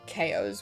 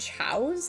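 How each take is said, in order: First: It is said as two syllables, like 'kay-oss'. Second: It is said as one syllable, like 'chow'. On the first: "I always called them K Os when I was a kid, because I thought they were like based on chaos" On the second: "do you call them chows? Is that how you pronounce it?"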